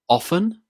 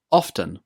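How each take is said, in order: First: Often as "OFF-en", pitched up; silent T in OFTEN. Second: Often as "OFF-ten", falling; T pronounced in OFTEN. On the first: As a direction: leave out the T in Often, lifting at the end. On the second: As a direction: sound the T in often, tune falling. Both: Shown as a demonstration. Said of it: "I pronounce this word as often with a t".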